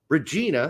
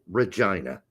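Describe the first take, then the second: First: It is said with the German pronunciation. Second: It is said with the Canadian pronunciation. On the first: The speaker calls it right. "In German, Regina" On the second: The speaker calls it wrong. "in Canada they pronounce it Regina"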